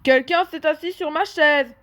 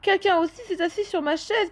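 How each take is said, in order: First: A big deep voice, like Papa Bear. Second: A soft gentle voice, like Mama Bear.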